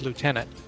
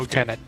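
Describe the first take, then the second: First: The first syllable sounds like 'loo'. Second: The first syllable sounds like 'left'. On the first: "Americans pronounce it as lieutenant" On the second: "The U K and Canada pronounce it as left as lieutenant"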